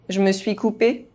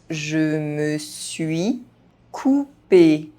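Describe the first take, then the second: First: The phrase is spoken fast, sounds reduced. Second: The phrase is spoken at normal speed. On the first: This is how native speakers say it. "fast, as a native speaker would do" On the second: This is the pace learners should use. "at a normal pace"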